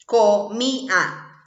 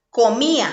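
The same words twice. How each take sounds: First: "comía" said very slowly, split as co-mí-a; slow, split syllables. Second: Said in the usual way. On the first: Shown as a demonstration. Teacher showing the hiatus to pupils, very slowly. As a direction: stretch "comía" out slowly so the í stands apart from the a. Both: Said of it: "también vuelven a estar separadas".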